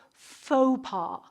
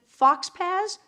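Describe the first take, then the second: First: "faux pas" said as foh-PAH; French pronunciation. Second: "fox pas" read as spelled, like fox pazz; mispronounced faux pas. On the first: Teacher correcting the class, "faux pas" pronounced foh-pah. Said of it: "it's French. You pronounce it faux pas". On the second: Teacher testing the class, mispronouncing "fox pas" as fox pazz. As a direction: say "fox pas" with a sounded x and final s. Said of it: "how do you pronounce this word?". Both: Shown as a demonstration.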